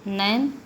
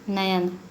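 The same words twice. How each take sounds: First: नैन as one syllable; vowel error. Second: नयन as two syllables, na-yan; corrected form. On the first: Teacher showing a vowel error, one-syllable नैन. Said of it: "स्वर संबंधी अशुद्धियों के बारे में". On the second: Teacher giving the correction, two-syllable नयन. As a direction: sound the y in नयन. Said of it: "शुद्ध है". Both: Shown as a demonstration.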